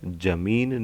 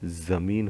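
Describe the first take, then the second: First: It begins with a plain j sound. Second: It begins with a z sound. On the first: The speaker calls it wrong. "नहीं होता है" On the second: The speaker calls it right. "जमीन होता है, ठीक है। तो ज के नीचे नुक्ता लग जाएगा।"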